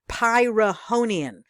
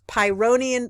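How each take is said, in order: First: The word has an extra uh sound. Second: The word has no extra uh sound. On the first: The speaker calls it wrong. "I made a mistake on the pronunciation" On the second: The speaker calls it right. "The H is silent. There's no A in there"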